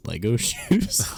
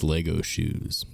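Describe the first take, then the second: First: Amused disbelief with a laugh; incredulous. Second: Said in the usual way. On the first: Real, not acted. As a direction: ask it as if you can't believe it.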